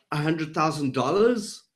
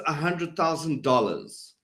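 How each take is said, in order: First: "dollars" lifting into a question at the end; unsure, ask it with "dollars" rising; questioning upward inflection. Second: "dollars" stepping down to a firm close; authoritative falling inflection. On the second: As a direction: state it, dropping the pitch on "dollars". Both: Shown as a demonstration. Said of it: "if I go down at the end of my statement".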